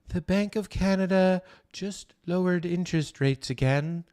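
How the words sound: It is said in a soft, feminine voice. "much softer and more feminine like"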